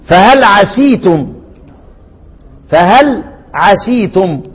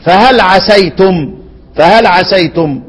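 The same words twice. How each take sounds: First: Slowly, "عسيتم" with a long ee, "asee-tum"; kasra on the seen. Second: Slowly, "عسيتم" with an ay diphthong, "asay-tum"; fatha on the seen. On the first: Teacher demonstrating one reader's variant, slow "عسيتم" with an ee vowel. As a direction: draw out "عسيتم" as "ʕa-SEE-tum". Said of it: "يقرأ ايه؟". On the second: Teacher demonstrating the other readers' way, slow "عسيتم" with an ay sound. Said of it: "والباقون يقرؤون ايه؟". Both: Shown as a demonstration.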